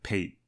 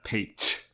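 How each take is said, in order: First: The final consonant sounds like a soft D. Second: The final consonant sounds like a clear T. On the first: The speaker calls it right. "it's more like a D, like Pate" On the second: The speaker calls it wrong. "It's not Pate"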